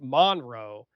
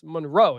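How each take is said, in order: First: The stress is on the first syllable. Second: The stress is on the second syllable. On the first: The speaker calls it wrong. "everybody is saying it Blake Monroe. And that just sounds well, weird" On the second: The speaker calls it right. "It's the emphasis on the row"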